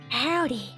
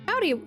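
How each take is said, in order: First: It is said in a creepy voice. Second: It is said in a normal voice.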